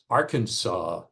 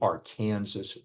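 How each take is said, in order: First: The word is not said as its spelling suggests. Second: The word is said as its spelling suggests. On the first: This is the other state's way of saying it. The speaker calls it wrong. "this pronunciation promulgated by the state that calls itself Arkansas" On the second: This is the local way of saying it. The speaker calls it right. "we call it the Arkansas River, as would be expected from the spelling"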